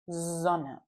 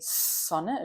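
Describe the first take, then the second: First: The first S is a soft buzzing sound. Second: The first S is a sharp hissing sound. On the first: The speaker calls it right. "we say a soft S" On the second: The speaker calls it wrong. "we don't say Sonne, a sharp S"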